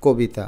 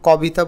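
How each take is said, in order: First: কবিতা as 'ko-bi-ta'; close, rounded o in কবিতা; natural pronunciation. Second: কবিতা as 'kaw-bi-ta'; spelling pronunciation. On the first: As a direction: say কবিতা starting with কো. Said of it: "আমরা বলি কবিতা". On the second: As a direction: open অ after the k in কবিতা. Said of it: "কখনো কবিতা বলি না". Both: Shown as a demonstration.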